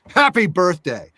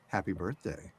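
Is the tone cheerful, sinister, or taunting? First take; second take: taunting; sinister. First: It sounds taunting and aggressive. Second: It sounds sinister and menacing.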